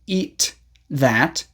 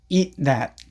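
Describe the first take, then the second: First: The final consonant is released with air. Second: The final consonant is held without air. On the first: "Instead of saying" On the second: "don't release the air"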